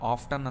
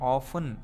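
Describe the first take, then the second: First: The word is said with a t sound. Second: The word is said without a t sound. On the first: "Americans ಇದನ್ನು ಆಫ್ಟನ್ ಅಂತ ಕೂಡ ಅಂತಾರೆ" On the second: "ಇದನ್ನು ಆಫನ್ ಅಂತ pronounce ಮಾಡಬೇಕು"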